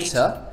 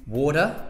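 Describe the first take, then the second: First: The middle T is a clear T sound. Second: The middle T sounds like a D. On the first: "but in the British accent, the T is a T" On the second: "other accents is to pronounce the T as a kind of like a D"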